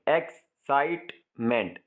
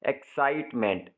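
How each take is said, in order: First: "excitement" slowly split as x, site, meant; syllable by syllable. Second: "excitement" with a small break before "meant"; lightly split word. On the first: Teacher showing how sound changes, "excitement" in three slow syllables. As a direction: break "excitement" into three separate beats with pauses. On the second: Teacher first giving the example word, "excitement" only lightly divided. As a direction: say "excitement" nearly whole, in two chunks. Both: Shown as a demonstration. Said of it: "आवाज़ हमारी बिल्कुल change हो जाती है".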